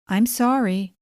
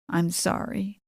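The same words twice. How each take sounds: First: It is said flatly, without real feeling. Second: It is said tearfully, as if crying.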